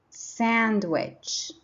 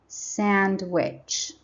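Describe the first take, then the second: The two takes are said the same way.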